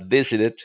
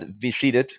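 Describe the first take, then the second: First: The stress is on the first syllable. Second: The stress is on the second syllable. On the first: The speaker calls it right. "the stress goes on the first syllable" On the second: The speaker calls it wrong. "not visited"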